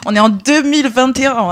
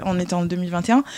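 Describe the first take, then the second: First: Deux punched higher and louder; emphatic year. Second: Said in the usual way. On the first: Retold or imitated. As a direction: stress deux in deux mille vingt et un. Incredulous repeated year. (insister sur « deux mille vingt et un »)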